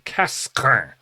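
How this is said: The name is said with French pronunciation. The speaker calls it right. "That's my best attempt at French pronunciation"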